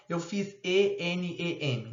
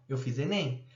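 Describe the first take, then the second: First: ENEM as E, N, E, M, each letter named; spelled letter by letter. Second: "enem" said as one fluid word, e-nem; read as a word. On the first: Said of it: "a gente não fala". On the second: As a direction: run enem together as a single word. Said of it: "Não". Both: Shown as a demonstration.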